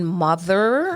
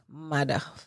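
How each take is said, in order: First: The middle consonant is a th sound. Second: The middle consonant is a plain d sound. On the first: "instead of saying mother" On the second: "taking off the H off words"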